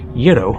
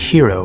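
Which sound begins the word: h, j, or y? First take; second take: y; h. First: The word begins with a y sound. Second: The word begins with an h sound. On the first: The speaker calls it right. "it's something more like euro" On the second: The speaker calls it wrong. "it's not hero"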